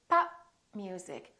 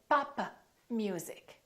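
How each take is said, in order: First: The final p of pop is not released. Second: The final p of pop is released. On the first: The speaker calls it right. "you need to say pop music, So I didn't release my lips" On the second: The speaker calls it wrong. "Don't say papa music"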